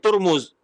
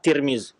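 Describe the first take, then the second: First: The first two vowels are u sounds. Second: The first two vowels are i sounds. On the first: "bi dhammi ta wal mim" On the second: "hanya dengan kasrata"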